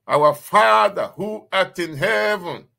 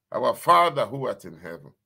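First: Proclaimed prayer. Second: Said in the usual way. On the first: Acted.

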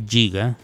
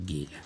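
First: GIGA said "jiga"; giga con g suave. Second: GIGA said "guiga"; hard g at the start of GIGA; giga con g dura. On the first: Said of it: "no se dice giga". (giga dicho "yiga") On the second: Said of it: "se dice giga". (giga dicho "guiga") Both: Shown as a demonstration.

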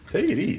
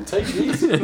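First: Said in the usual way. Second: Laughing. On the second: Real, not acted. Laughing teasing after fall.

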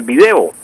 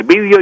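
First: Video as vi-DE-o; stress on second syllable. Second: Vídeo as VÍ-deo; stress on first syllable. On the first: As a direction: hit the DE in video. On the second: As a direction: hit the VÍ in vídeo. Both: Shown as a demonstration. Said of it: "utilizan las dos formas".

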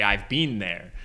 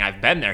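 First: "been" said like "bean", the British way; imitating a friend's British "been" as "bean". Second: Said in the usual way. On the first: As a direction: stretch "been" into "bean" like a Brit. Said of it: "he'd say". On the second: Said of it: "instead of saying".

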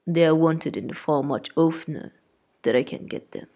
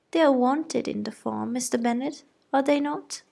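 First: Husband wryly undercutting wife; dry father. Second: High-pitched insistent mother; wife seeking husband's backing; fussy mother. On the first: Mr Bennet replies dryly. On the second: Mrs Bennet asks husband. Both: A narrator's reading.

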